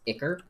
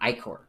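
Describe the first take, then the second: First: The word is said with a softer sound. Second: The word is said with a harsher sound. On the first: This is the standard pronunciation. "I believe it's actually is pronounced Iker" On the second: This is the speaker's preferred pronunciation. "it sounds so much more harsh"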